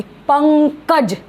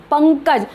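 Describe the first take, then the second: First: पंकज said slowly with a clear ङ nasal before क; slow demo pronunciation. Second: Said in the usual way. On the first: Shown as a demonstration. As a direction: stretch out पंकज so the ङ sound rings. (पंकज को धीरे, ङ की आवाज़ के साथ बोलना) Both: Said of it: "अनुस्वार की आवाज़ है, वो ये ङ".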